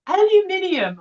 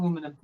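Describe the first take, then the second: First: "Aluminium" high-pitched, al-yoo-MIN-ee-um; mock the British "Aluminium", pitched up, every syllable sounded; British pronunciation. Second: "aluminum" in four syllables, a-LOO-mi-num; American pronunciation. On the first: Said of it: "way too many syllables to say". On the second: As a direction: say "aluminum" the American way, without the extra i. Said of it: "it's aluminum, people". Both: Shown as a demonstration.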